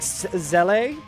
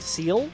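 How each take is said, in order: First: It starts with a Z sound, two syllables. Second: It starts with an S sound, like 'seal'. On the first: The speaker calls it right. "But it's like Zelle or something" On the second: The speaker calls it wrong. "I always thought the organization that's in Evangelion is called SEAL, because it's spelled like that"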